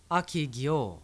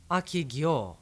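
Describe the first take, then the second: First: It is said as a simple question. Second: The same.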